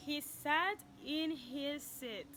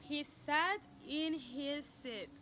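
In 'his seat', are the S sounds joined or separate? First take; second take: joined; joined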